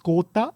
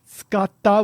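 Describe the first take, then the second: First: It is said in the Kansai dialect form. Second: It is said in the standard Tokyo form. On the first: "in Kansai dialect... you would say it's skota" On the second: "Skata would be in, in standard dialect"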